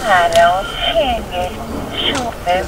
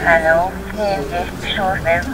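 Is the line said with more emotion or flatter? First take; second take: more emotion; flatter. First: It is said with more emotion. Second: It is said flatter, with less emotion.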